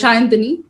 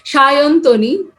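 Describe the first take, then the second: First: The vowel before the last syllable is open, unrounded. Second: The vowel before the last syllable is rounded. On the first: "That way, it's uh, Shayantani" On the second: "The typical Bengali one is Shayantoni because, ... everything turns quite well rounded"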